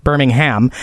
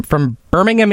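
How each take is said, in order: First: Birmingham said BUR-ming-HAM, full ham; Birmingham said wrong. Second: Birmingham said BUR-ming-um, unstressed final um; Birmingham said right. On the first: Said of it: "not Birmingham". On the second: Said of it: "it is Birmingham, not Birmingham". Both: Shown as a demonstration.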